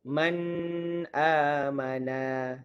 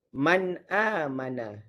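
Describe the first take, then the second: First: The n is held with a lingering nasal hum. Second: The n is pronounced clearly without a nasal hum. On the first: The speaker calls it wrong. "dia pun baca dengan dengung" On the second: The speaker calls it right. "Izhar ni ialah bacaan jelas"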